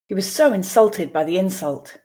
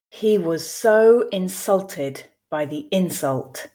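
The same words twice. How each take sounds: First: The sentence is read at a natural pace. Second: The sentence is read slowly. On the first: "then I will read two more times at a more natural pace" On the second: "I will read once slowly for you to grasp the meaning"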